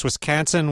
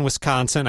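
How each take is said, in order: First: Wisconsin with a flat A, wis-KAN-sin; older Wisconsin vowel. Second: Wisconsin with an open O, wis-KON-sin; newer Wisconsin vowel. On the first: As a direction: say Wisconsin with the A of can. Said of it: "I exaggerated a bit". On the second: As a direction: say Wisconsin with the O of con. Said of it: "Can, con, and that O sound". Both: Shown as a demonstration.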